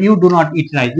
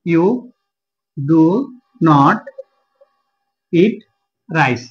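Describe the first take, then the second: First: Said in the usual way. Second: Each word alone, long pauses between; word-by-word dictation. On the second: Shown as a demonstration. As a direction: spell out the sentence slowly, word by word. Repeats example word by word while writing. (একটা একটা শব্দে থেমে থেমে বলা)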